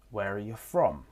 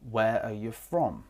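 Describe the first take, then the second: First: The small words are reduced to weak forms. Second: The small words are reduced to weak forms.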